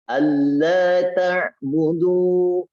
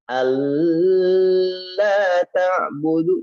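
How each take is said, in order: First: The doubled l is said quickly, not held. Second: The doubled l is held for a long time. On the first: The speaker calls it right. "Langsung aja" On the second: The speaker calls it wrong. "Bukan alla ta'budu. Jangan"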